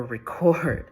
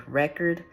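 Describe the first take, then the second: First: "record" as the verb, ri-CORD; stress on second syllable. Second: "record" as the noun, REK-erd; stress on first syllable. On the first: Reader reporting her notes, "record" stressed on second syllable. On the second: Reader reporting her notes, "record" stressed on first syllable. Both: Shown as a demonstration. Recalls both readings written down.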